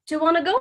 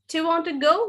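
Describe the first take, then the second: First: Want and to merge into one word, wanna. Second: Want and to are said as separate words.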